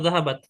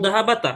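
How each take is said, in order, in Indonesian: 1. Huruf t di akhir tidak diikuti vokal. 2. Huruf t di akhir diikuti bunyi a pendek.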